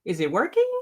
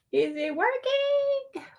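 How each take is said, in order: First: Said in the usual way. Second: Much higher and slow, drawn-out worry; high drawn-out is it working; anxious high question. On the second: Real, not acted. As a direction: stretch it out high, fretting. Checking the stream tool.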